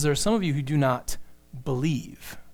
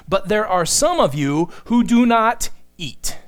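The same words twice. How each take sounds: First: Soft, low reading with "believe" set apart by a pause; understated correction, "believe" low and separate; corrected quote. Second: Loud, emphatic reading landing on "eat"; raised volume, weight on "eat"; deliberate misquote. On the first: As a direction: pause before "believe", then drop it quietly. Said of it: "He says". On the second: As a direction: declare it firmly, setting "eat" apart at the end. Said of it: "That's not what he says". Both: Shown as a demonstration.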